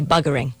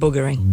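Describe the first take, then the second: First: It is said the London way. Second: It is said the northern English way.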